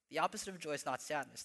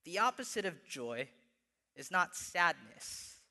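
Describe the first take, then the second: First: Fast, lighter run-through of "The opposite of joy is not sadness"; quick restatement. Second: Slow, weighty quote with "not" leaned on; slow quoted line. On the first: Pastor repeating the quote to the church, quick and offhand. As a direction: toss the line off quickly as a recap. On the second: Pastor quoting Tim Keller, slow and emphatic. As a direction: lay down "The opposite of joy is not sadness" slowly, punching "not". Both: Shown as a demonstration. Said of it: "he says it pretty simply this way".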